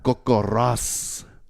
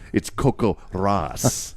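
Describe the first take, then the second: First: The R in Ross is rolled, trilled. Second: The R in Ross is a plain R.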